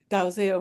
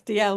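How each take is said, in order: First: The name is said with a z sound. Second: The name is said like 'Dee-ell', without z. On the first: It is the way the family said their name. "the family had pronounced it Dalziel and was very clear about that" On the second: It is the usual way this name is said. "I had always said D L myself"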